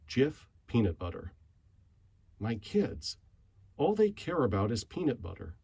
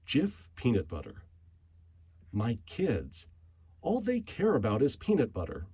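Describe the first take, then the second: First: It is read plainly, with less expression. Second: It is read expressively, with more animation.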